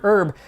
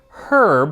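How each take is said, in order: First: The word begins with a vowel sound. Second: The word begins with an H sound. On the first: This is how it is said in the U S. "Every time I pronounce the word herb" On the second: This is how the English say it. "herb with a hard H"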